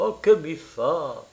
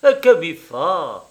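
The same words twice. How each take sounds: First: Slow, careless shrug of a question; indifferent. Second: Loud, higher, drawn-out question; slow, puzzled shrug in the voice; vague surprise. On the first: Woman shrugs off the traveller's question, indifferent. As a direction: draw it out as if it hardly matters. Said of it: "avec une indifférence souveraine". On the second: Woman answers which man she prefers, vaguely surprised. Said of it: "répondit avec une vague surprise". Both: A narrator's reading.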